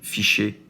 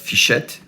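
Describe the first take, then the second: First: The name ends with an open 'ay' sound. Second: The name ends with a clear 'et' sound. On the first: The speaker calls it right. "which is the good pronunciation, fichet uh, in French" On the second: The speaker calls it wrong. "and not fichette"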